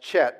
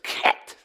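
First: The word starts with a soft ch sound. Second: The word starts with a throaty K sound. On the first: The speaker calls it wrong. "you would think it was pronounced Chet" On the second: The speaker calls it right. "it's actually a K sound, and it's a back of the throat type of sound"

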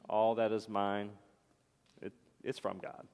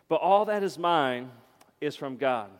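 First: It is said in a flat, half-hearted way. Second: It is said in a firm, convinced way. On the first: The speaker does not really believe it. The speaker calls it wrong. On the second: The speaker truly believes it. The speaker calls it right.

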